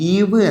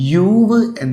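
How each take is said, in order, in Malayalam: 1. ഈ വാക്ക് 'ee' ശബ്ദത്തിലാണ് തുടങ്ങുന്നത്. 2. ഈ വാക്ക് 'yoo' ശബ്ദത്തിലാണ് തുടങ്ങുന്നത്. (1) "ഈവ് എന്നല്ല"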